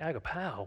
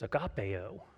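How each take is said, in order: First: The ending sounds like ah-oh. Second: The ending sounds like eh-oh. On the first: The speaker calls it right. "Pastor Frank was right" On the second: The speaker calls it wrong. "I thought it was agapeo"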